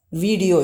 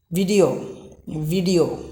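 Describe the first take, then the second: First: VIDEO with a long first vowel, "vee-dio"; wrong video. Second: VIDEO with a short i, "vid-io"; correct video. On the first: Teacher shows how most of us say video, long "vee". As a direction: stretch the i of "video" to ee. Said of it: "But that's wrong". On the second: Teacher models how we should say video, short i. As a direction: say "video" with a short first vowel. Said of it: "We should pronounce it as". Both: Shown as a demonstration.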